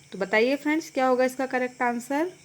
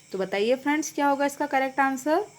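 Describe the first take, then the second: No difference in how they are said.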